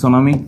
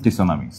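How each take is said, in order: First: It begins with an s sound only. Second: It begins with a t before the s.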